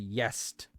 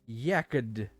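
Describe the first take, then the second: First: The middle consonant is sounded as S. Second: The middle consonant is sounded as K.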